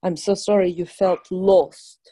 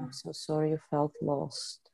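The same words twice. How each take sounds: First: Slow gentle apology. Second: Quiet repeat. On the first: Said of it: "healer models phrase slowly". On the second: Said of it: "client repeats it". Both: Shown as a demonstration.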